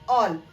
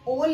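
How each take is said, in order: First: The vowel is a short open 'aw' sound. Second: The vowel is a rounded 'oh' sound. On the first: The speaker calls it right. "बल्कि हम इसको बोलते हैं ऑल" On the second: The speaker calls it wrong. "इसको हम ओल नहीं बोलते"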